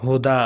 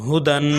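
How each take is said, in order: First: ہدا ending on open long "aa"; pausal form. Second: ہدن ending in a held "-an"; full form with tanween. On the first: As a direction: drop the nun and finish ہدا on "aa". (ہدا کے آخر میں الف کی آواز پر رکیں) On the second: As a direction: sound the final nun of ہدن. (ہدن کو تنوین کے ساتھ پڑھیں) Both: Shown as a demonstration. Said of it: "آگے وقف".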